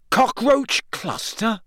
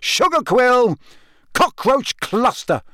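First: Higher, slow wondering question; amazed that it worked. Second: Much higher, yelled guesses; frustrated yelling, still hopping; angry yell. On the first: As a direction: say it in disbelief. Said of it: "he said, amazed". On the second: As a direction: hurl the passwords at it. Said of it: "he yelled angrily". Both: A narrator's reading.

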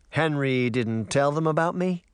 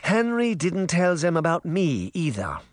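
First: A hint of the uncle, higher-pitched question; lightly voiced uncle. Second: Higher-pitched grandmother voice; Granny's character voice. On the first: Uncle learns his nieces never heard of him, lightly voiced question. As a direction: lightly play the man asking, puzzled. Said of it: "the man said". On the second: Granny answers her son about Henry, higher grandmother voice. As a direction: play the old woman answering her son. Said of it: "Granny Relda said". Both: A narrator's reading.

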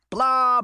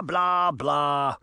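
First: High, loud mocking blah; mock the villain's speech. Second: Dismissive, dropping blah blah; trailing mock blah. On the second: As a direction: brush him off with boredom. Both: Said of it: "Uncle Jake mocked".

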